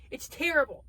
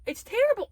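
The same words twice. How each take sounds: First: Said in the usual way. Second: Much higher and louder, exasperated; exasperated outburst on terrible; emphatic. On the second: Real, not acted. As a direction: shout it the second time.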